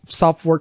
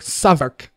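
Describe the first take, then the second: First: It is said with full 'south' and 'wark' parts. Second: It is said short, like 'suh-vuk'. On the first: "instead of the Strat pronounced South Southwark" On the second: "the British like call it Savok"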